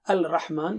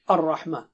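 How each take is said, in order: First: A clear L sound comes before the R. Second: The L merges into a doubled R sound. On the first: The speaker calls it wrong. "Instead of saying al-rahman" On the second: The speaker calls it right. "we say ar-rahman"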